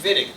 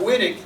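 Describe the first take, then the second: First: The name begins with a V sound. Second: The name begins with a W sound. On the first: This is the German way of saying it. The speaker calls it right. "It's Vitig" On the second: This is the non-German way of saying it. The speaker calls it wrong. "It's not Wittig"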